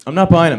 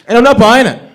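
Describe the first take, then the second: First: Second, slightly calmer "not buying it"; repeat, stress on not. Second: Emphatic. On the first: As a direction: lean on "not" once more. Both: Acted.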